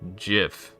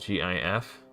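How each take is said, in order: First: It begins with a hard G sound. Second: Each letter name is spoken separately. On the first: "pronounce the word with a hard G" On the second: "as an initialism, speaking the name of each letter"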